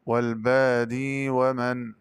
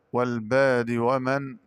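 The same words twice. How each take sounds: First: والبادي ومن with a long ee linking the words; slow linked reading, "baadii" in والبادي; ya kept. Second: Said in the usual way. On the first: Shown as a demonstration. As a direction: recite والبادي slowly, holding the final ee. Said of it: "بإثبات الياء وصلا". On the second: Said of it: "قرأ بإثبات الياء وصلا".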